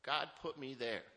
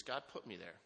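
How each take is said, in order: First: "God put me there." said slower, louder and higher, each word leaned on; slow emphatic repeat. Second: Said in the usual way. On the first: Real, not acted. To the AA audience, repeating his faith, slow and emphatic. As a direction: drive the repeat home with weight on "God".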